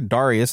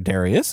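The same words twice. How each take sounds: First: The name is said as the documentary says it. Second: The name is said in the familiar churchgoer way. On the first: This is how the documentary seems to say it. "it sounds like they're saying" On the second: This is how churchgoers usually say it. "as we would call him"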